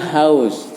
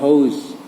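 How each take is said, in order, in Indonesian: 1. Vokalnya diucapkan seperti 'ow'. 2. Vokalnya diucapkan seperti 'oh-oo'. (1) "bacanya house" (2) "jadi bukan house"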